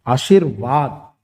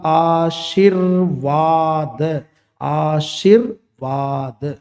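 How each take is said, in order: First: Said in the usual way. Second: आशीर्वाद stretched out very slowly, each syllable apart. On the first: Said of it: "ऐसे आशीर्वाद". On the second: Shown as a demonstration. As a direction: spell out आशीर्वाद slowly, र sitting on शी. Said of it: "तो इसका उच्चारण कैसे होगा?". (आशीर्वाद को धीरे-धीरे अक्षर-अक्षर बोलना)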